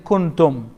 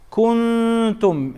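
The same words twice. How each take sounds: First: The n is short and clearly pronounced. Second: The n is hidden, nasal and lengthened.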